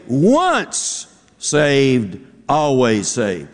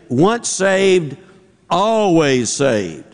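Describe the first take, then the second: First: The stress is on once saved. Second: The stress is on always.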